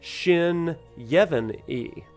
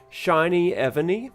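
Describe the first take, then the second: First: The name is split as Shin, Yevon, E. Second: The name is split as Shiny, Evany. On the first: "it could be Shin Yevon E" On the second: "I read it Shiny Evany"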